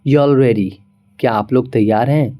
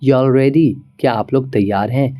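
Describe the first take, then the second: No difference in how they are said.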